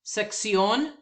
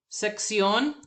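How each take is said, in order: Both takes have the same delivery.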